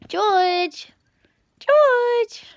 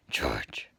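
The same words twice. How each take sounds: First: High loud call to a cat. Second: Low breathy whisper of the name; whispered call. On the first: Owner calling her cat across the room, loud high call. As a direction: sing out the cat's name, high and loud. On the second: Owner whispering the cat's name to him, soft whisper. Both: Real, not acted.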